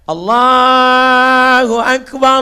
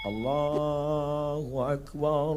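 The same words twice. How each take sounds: First: It is said loudly and forcefully. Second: It is said softly and gently.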